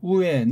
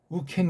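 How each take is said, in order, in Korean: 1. 모음이 자음 없이 바로 이어져요. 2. k 소리가 두 단어를 이어 줘요. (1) "우린 우엔 그래도 되는데" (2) "우켄 글은 이렇게 군더더기를 넣은 거예요"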